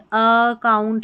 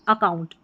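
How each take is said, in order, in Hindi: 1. पहला स्वर खींचकर लंबा किया जाता है। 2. पहला स्वर छोटा रखा जाता है। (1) "खींच के लंबा नहीं पढ़ रहे, अकाउंट नहीं पढ़" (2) "अ की ध्वनि शॉर्ट वाउल है"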